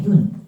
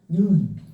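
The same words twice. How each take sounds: First: The vowel is held short. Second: The vowel is held long. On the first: It means the eye. "우리 보는 눈은 짧게" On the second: It means snow falling from the sky. "눈을 길게 발음한다고 그랬지, 장음?"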